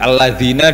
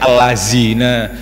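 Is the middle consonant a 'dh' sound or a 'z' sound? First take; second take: dh; z. First: The middle consonant is a soft 'dh' sound. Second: The middle consonant is a 'z' sound. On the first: The speaker calls it right. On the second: The speaker calls it wrong.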